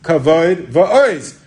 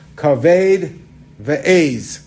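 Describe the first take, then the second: First: The second vowel of the first word sounds like 'o'. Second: The second vowel of the first word sounds like 'ay'. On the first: It means glory and strength. The speaker calls it right. "It's really supposed to be" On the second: It means a kidney and a goat. The speaker calls it wrong. "if you're going to pronounce the Pasuk like that"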